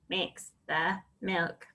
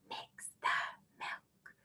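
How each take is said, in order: First: The words are said in a robot voice. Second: The words are whispered softly. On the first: "Can you robot it?" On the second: "Can you whisper it?"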